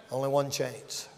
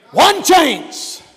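First: Low, very soft repeat; hushed warning. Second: High, punched preacher's shout; shouted warning. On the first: Preacher warning of no second chance, hushed. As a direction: drop the voice right down. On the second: Preacher warning of no second chance, shouting. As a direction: cry out ONE CHANCE. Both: Real, not acted.

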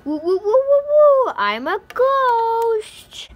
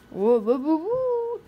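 First: Higher, louder, slow spooky wail; ghost voice. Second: Ghost voice. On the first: Acted. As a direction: scare them with a ghost moan. Prank with ghost voice. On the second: Shown as a demonstration. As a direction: try out a spooky ghost moan. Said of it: "that's a good ghost voice".

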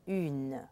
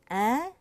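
First: "une" with French u and full N; exaggerated contrast. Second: "un" as a clear nasal vowel, rising; exaggerated contrast. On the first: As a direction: let the N ring at the end of "une". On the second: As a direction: overdo the nasal "un", no N sounded. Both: Shown as a demonstration. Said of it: "Really exaggerate that difference between".

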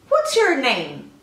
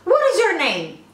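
First: Slow, deliberate question, each word spaced; slow and careful. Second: Quick, run-together native-speed question; fast like an American. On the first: Teacher asks the student's name, slow and clear. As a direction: ask it slowly for learners to follow. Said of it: "Só que eu vou falar mais rapidinho". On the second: Teacher mimics an American asking a name, fast. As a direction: rattle it off like a native speaker. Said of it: "como se fosse um americano falando". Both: Shown as a demonstration.

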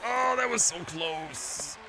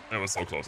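First: High, slow, stretched-out "Oh, that was so close"; slow, high wail of "so close"; drawn-out dismay. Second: Said in the usual way. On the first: Real, not acted. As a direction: draw out the near miss in agony.

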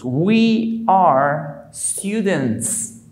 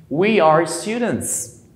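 First: We are students, drawn out word by word; very slow model. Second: We are students, a bit quicker second take; slow repeat. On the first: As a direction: stretch each word for learners. (muy lento, palabra por palabra) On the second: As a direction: repeat it slow but smoother. (repetición lenta) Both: Shown as a demonstration. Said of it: "Se diría nosotros".

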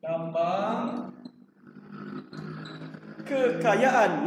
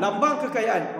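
First: Slow fill-in-the-blank cue; drawn-out prompt. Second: Said in the usual way. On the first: Shown as a demonstration. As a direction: stretch each word slowly, pausing between them. Teacher drawing out answer for class.

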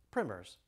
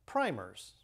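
First: "primers" with a short i, like "trimmers"; English pronunciation. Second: Said in the usual way. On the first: Shown as a demonstration. Speaker shows how the English pronounced it, "primers" with short i. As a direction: say "primers" with its first vowel as in "prim". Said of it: "as the English pronounced it".

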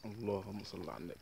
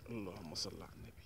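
First: Said in the usual way. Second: Breathless whispered blessing under the breath; tense hushed murmur while landing a fish; whispered prayer. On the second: Real, not acted. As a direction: whisper it to yourself. Praying while reeling fish.

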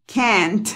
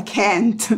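First: CAN'T as "kent", Spanish-like E; correct pronunciation demo. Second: CAN'T with an open A instead of E; wrong pronunciation demo. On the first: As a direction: say CAN'T with a clear E and final T. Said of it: "así es como se pronuncia". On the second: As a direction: show the mistaken "kahnt" vowel in CAN'T. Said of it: "que no se pronuncia can't". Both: Shown as a demonstration.

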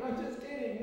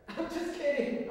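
First: Said in the usual way. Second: Laughing through I'm just kidding; amused, a little guilty. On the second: Real, not acted. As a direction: giggle the words out. Laughs off dress joke.

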